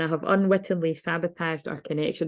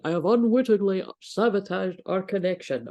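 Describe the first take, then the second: First: It is read in a normal speaking voice. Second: It is read in a put-on posh voice.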